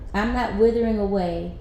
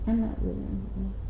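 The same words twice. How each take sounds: First: It is said more loudly. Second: It is said at a normal, quieter volume.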